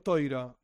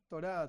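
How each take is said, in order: First: The first vowel is the diphthong 'oi'. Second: The first vowel is a plain 'o'. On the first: "Que yo digo toira" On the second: This is a simpler, more widely used way of saying it. "A veces digo Torá para que sea más sencillo"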